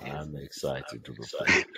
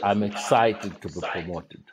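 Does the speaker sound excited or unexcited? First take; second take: unexcited; excited. First: It is said with an unexcited tone. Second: It is said with an excited tone.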